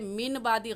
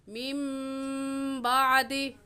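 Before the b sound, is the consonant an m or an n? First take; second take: n; m. First: A clear n sound comes before the b. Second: The n turns into a nasal m before b. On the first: The speaker calls it wrong. "मिन बादी गलत है" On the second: The speaker calls it right. "सही लफ्ज़ क्या है?"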